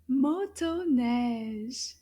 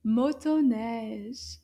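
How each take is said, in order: First: Motoneige slow, every syllable drawn out; slow model word. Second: Motoneige a bit quicker, still clearly separated; a little faster. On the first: Teacher modelling a French word, Motoneige slow and measured. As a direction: say Motoneige slowly so learners can follow. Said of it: "let's repeat it a little bit faster". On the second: Teacher repeating for children, Motoneige a little bit faster. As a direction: speed Motoneige up slightly, keeping it careful. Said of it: "repeat it a little bit faster". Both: Shown as a demonstration.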